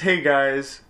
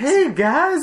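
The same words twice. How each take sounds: First: It is said flatly, without excitement. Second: It is said excitedly, with exclamation.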